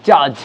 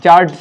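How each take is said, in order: First: "judge" as "jaj", d dropped; silent d. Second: "judge" with the d sounded; loud wrong "judge", voicing the d; wrong pronunciation. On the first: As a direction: say "judge" lower, with no d. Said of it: "ডি silent". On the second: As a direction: say "judge" with an audible d, loudly. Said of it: "not judge". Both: Shown as a demonstration.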